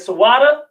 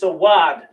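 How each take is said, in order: First: The word ends with an extra a vowel. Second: The word ends on the d consonant. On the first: The speaker calls it wrong. "instead of saying Sawada" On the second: The speaker calls it right. "because of that connector, is Sawad"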